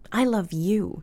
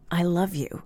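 First: The stress falls on the word you. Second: The stress falls on the word love. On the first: This person is the one loved. "or its target" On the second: The feeling is strong. "an assurance of the strength of the feeling"

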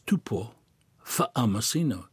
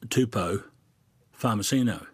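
First: The name is said with Samoan sounds. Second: The name is said with anglicized English sounds. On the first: The speaker calls it right. "it's Tupo Farmacino" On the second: The speaker calls it wrong. "you say Tupo Farmacino"

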